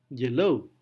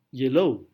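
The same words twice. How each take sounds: The two takes are said the same way.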